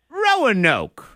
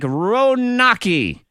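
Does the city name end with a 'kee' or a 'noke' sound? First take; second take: noke; kee. First: The name ends with a 'noke' sound. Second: The name ends with a 'kee' sound. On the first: The speaker calls it right. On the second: The speaker calls it wrong.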